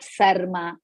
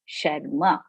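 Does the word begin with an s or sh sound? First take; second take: s; sh. First: The word begins with an s sound. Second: The word begins with an sh sound. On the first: The speaker calls it wrong. "And not Sarma" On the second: The speaker calls it right. "It is Sharma"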